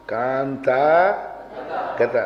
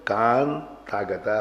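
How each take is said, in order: First: कांता गता with कांता kept whole; the habitual wrong split कांता गता; wrong reading. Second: Slow soft कांता गता with ता carried over; correct reading. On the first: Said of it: "उच्चारण तो यही है ना". (रटा हुआ गलत उच्चारण) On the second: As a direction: drag कांता गता slowly, joining ता to गता. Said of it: "अब मूल शुद्ध है". (धीमा शुद्ध उच्चारण) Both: Shown as a demonstration.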